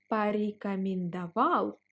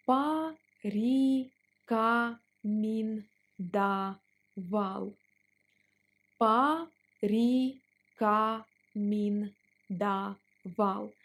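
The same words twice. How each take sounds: First: Said in the usual way. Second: Порекомендовал stretched out; slow drill on порекомендовал. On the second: Shown as a demonstration. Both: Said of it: "Let's pronounce it slower".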